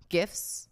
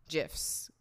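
First: "gifs" with a hard G as in "gift". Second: "gifs" with a J sound, like "jifs"; soft G. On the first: Host comparing versions, "gifs" with hard G. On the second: Host comparing versions, "gifs" with soft G. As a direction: start "gifs" like "Jiffy". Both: Shown as a demonstration.

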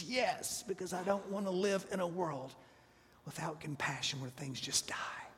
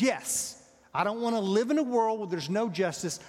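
First: Soft, defeated, fading into a whisper; despairing Jonah. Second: Loud, heated protest; angry Jonah. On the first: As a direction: Jonah giving up, his voice sinking away. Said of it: "Jonah is extremely unhappy". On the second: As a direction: Jonah insisting hotly that justice must stand. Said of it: "And I'm really angry about it". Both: Acted.

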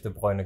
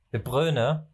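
First: De Bruyne with an oy sound, "De Broy-ne"; requested name pronunciation. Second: De Bruyne with an ö sound, "De Brö-ne"; altered vowel. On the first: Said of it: "er möchte in Zukunft wirklich". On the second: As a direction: round the UY in Bruyne to ö. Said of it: "wirklich De Bruyne genannt werden". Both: Shown as a demonstration.

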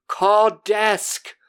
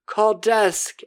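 First: Loud, higher, gasping demand; frantic cry for help. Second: Frantic cry for help. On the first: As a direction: shout it high like a man having a heart attack. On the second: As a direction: shout it again, high and desperate. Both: Retold or imitated. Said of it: "And he's like".

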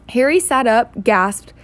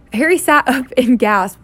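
First: Said in the usual way. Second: Louder, laughing retake; amused reader correcting herself; laughing at a misread. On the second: Real, not acted. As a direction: laugh off the slip and read on. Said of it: "I need to go to reading school".

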